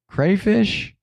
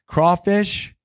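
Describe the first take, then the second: First: Crayfish said kray-fish, higher. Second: Crawfish said craw-fish with a rise. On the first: Comparing what people say to the spelling. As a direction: swap to the ay sound in crayfish. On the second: Comparing the two names for chat. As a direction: open with the aw of Crawfish. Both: Shown as a demonstration. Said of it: "people say crayfish".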